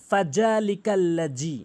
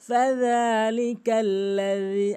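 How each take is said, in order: First: The consonant in 'alladhi' sounds like a z. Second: The consonant in 'alladhi' is made with the tongue tip at the teeth. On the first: The speaker calls it wrong. "এখানে বলে ফাযালিকাল্লাযী অধিকাংশ লোক" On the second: The speaker calls it right. "আমরা কেউ জি বলবো না"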